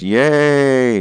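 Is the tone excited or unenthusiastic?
excited. It is said with real excitement.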